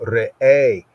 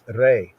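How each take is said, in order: First: The word is drawn out slowly. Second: The word is clipped short and quick. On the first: "Speak slow" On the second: "Saying at a lively pace"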